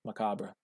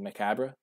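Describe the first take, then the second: First: Macabre as muh-KAH-bruh; soft, open AH in the middle of Macabre; corrected pronunciation. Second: Macabre with a short "a" as in cab; muh-KAB-ruh, lifted into a question; questioned pronunciation. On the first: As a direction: Macabre with "ah" as in father, final "ruh" sounded. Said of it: "I know how it's pronounced". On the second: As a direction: ask Macabre with the flat vowel of "cat". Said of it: "What was I saying?". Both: Shown as a demonstration.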